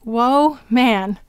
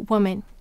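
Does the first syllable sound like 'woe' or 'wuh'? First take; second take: woe; wuh. First: The first vowel is a long 'oh' sound. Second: The first vowel is a short, reduced sound. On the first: It is said this way to help with spelling. "We are going to say to spell" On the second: It is the everyday way of saying the word. "We usually say"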